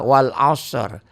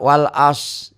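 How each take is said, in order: First: The final r sound is pronounced. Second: The final r sound is dropped. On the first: The speaker calls it right. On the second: The speaker calls it wrong.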